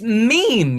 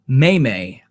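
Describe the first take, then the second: First: It is one syllable with a long 'ee' vowel. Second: It is two syllables with an 'ay' vowel. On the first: The speaker calls it right. "It's it's meme, you fucker" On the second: The speaker calls it wrong. "May May, I've heard it pronounced"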